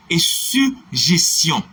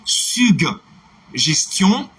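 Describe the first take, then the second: First: Slow model word, falling; slow demo word. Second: "Suggestion" drawn out with a hard g then j, syg-jes-tion; slow model word, rising; slow demo word. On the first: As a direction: say "suggestion" without the hard g, slowly. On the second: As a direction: stretch "Suggestion", voicing both g and j. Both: Shown as a demonstration. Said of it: "On va appeler tous les deux".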